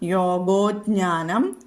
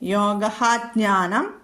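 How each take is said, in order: First: One joined word, the first part ending in o. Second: Two separate words, the first ending in h.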